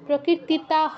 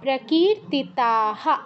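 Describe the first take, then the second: First: The final h ends bare without a vowel. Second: The final h is followed by an echoed a. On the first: The speaker calls it wrong. "প্রকীর্তিতাহ নয়" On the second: The speaker calls it right.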